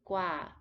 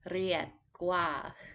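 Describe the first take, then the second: First: The first sound is an L. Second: The first sound is a rolled R. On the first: "many Thai people will pronounce it as an L" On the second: "the proper way is to roll it a little bit"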